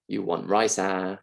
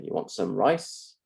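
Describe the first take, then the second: First: Singaporean English. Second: "You want some rice?" with the pitch rising on "rice"; rising question. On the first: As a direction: drop the rise, add "ah" at the end. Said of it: "in Singaporean English, we get this instead". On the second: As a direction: standard British question tune. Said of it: "So you say". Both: Shown as a demonstration.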